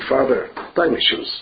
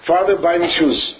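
First: It is said as a gentle, humble plea. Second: It is said as a rude, insolent demand. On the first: "Why don't you read it differently" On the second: "such a mechutzav"

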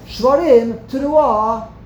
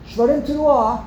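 First: There is a pause between the two words. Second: The two words run together without a pause. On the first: Take a breath between the two calls. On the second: Blow both calls together without a breath.

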